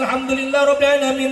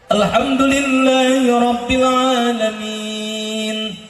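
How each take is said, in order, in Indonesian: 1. Dibaca dengan cepat dan disambung-sambung. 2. Dibaca dengan lambat dan dipanjang-panjangkan.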